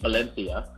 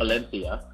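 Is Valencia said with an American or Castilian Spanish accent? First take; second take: Castilian; Castilian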